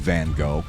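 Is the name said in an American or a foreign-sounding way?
American. The name is said with a plain American pronunciation. The speaker is unpretentious. The speaker calls it right. "Be proud of your American. Just say Van Gogh"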